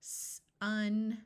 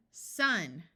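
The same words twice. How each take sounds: First: S and un pulled apart; slow segmented word; said slowly. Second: Sounds blended together; quick blended word; said fast. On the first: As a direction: stretch it into separate sounds. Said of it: "I'm going to say a word slowly". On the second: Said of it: "Say it fast". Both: Shown as a demonstration.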